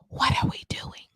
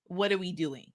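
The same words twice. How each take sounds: First: It is spoken in a whisper. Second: It is spoken in a normal voice.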